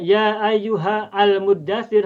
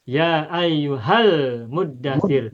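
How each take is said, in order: First: The 'al' starts a new, separate vowel sound. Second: The 'al' runs straight on from the previous word. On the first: The speaker calls it wrong. "Kalau kotor nanti bacanya" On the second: The speaker calls it right. "tidak perlu dibaca al muddatsir tapi langsung"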